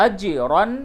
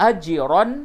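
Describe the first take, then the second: No difference in how they are said.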